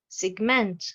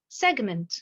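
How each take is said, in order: First: The stress is on the second syllable. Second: The stress is on the first syllable. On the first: It is a verb. "j'ai l'accentuation sur la deuxième syllabe" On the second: It is a noun. "nous avons l'accentuation sur la première syllabe"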